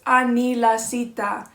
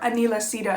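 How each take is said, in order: First: The name is said with its original, non-American pronunciation. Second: The name is said with an Americanized pronunciation. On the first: "That's how you say it" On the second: "if you want to say it with like an Americanized accent"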